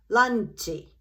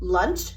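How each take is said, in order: First: It has an added final vowel, Japanese accent. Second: It is one syllable with an English accent. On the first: "In Japanese, it becomes" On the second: "one syllable in English"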